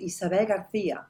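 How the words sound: The name is pronounced the Spanish way. "das klingt ja richtig gut Spanisch"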